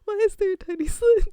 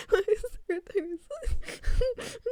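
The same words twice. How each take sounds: First: High, loud, through laughter; laughing in alarm. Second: Higher, slowed and stretched, laughing; slow laughing repeat. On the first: Streamer reacting to the game, high laughing alarm. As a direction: blurt it out, cracking up. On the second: Streamer repeating the question, slow and giggling. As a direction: draw the question out while giggling. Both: Real, not acted.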